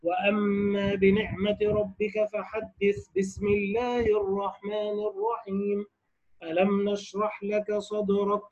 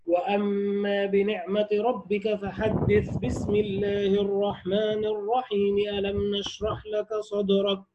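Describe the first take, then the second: First: Slow, soft recitation, "الرحيم" joined to the end of the sura, then a pause before "ألم"; forbidden recitation way. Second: Slow, soft tajweed recitation, every part flowing into the next; Quran recitation, all joined. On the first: Teacher showing students the forbidden way, slow soft recitation. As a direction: recite it the wrong way, the basmala tied back to the previous sura. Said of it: "لا، هذا وجه ممتنع".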